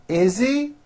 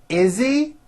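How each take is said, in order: The two takes are said the same way.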